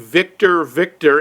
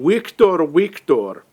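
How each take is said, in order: First: It is said in a plain English accent. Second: It is said in a Russian accent. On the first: This is the code he means to enter. "he's trying to say" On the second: This is how it comes out, confusing the computer. "he's saying ... does not know to compensate for a Russian accent"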